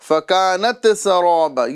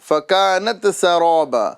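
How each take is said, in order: First: The t sound bounces with an echoing release. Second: The t sound bounces with an echoing release.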